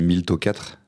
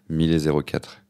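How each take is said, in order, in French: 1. Le zéro se lit comme un 'o' bref. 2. Le zéro se lit comme le mot zéro. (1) "j'avais dit Milto quatre" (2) "ça a plus de sens"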